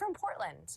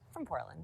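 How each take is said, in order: First: It is said with lively, high energy. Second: It is said with flat, low energy. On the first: The speaker finds it exciting to share. The speaker calls it right. "I'm from Portland" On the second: The speaker finds it dull to share. The speaker calls it wrong. "instead of from Portland"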